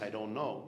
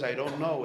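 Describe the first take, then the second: First: Said in the usual way. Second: I don't know said louder, know landing firm with a fall; emphatic admission. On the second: Shown as a demonstration. Rabbi shows how to admit not knowing, louder and firm. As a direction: declare I don't know with full weight. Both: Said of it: "it's not just ignorance".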